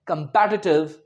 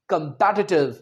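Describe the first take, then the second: The two takes are said the same way.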